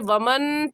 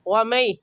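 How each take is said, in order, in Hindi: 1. "n" अलग से बोली जाती है, बिना मिले। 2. "n" नासिका के साथ अगली आवाज़ में मिल जाती है। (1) "इसे वमन पढ़ना गलत है" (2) "सही है वमई"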